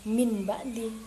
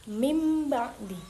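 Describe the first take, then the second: First: The nasal before b is said as n. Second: The nasal before b is said as m. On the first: The speaker calls it wrong. "bukan min ba'di. Salah" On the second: The speaker calls it right. "kita harus mengganti huruf ba dengan huruf mim"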